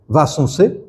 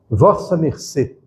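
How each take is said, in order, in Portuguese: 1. Três sílabas com som de n: vos-sun-cê. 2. Quatro sílabas completas: vos-sa mer-cê. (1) "quando encontra a fonética africana muda" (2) "nos textos mais antigos está assim"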